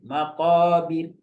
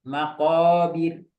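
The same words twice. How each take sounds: No difference in how they are said.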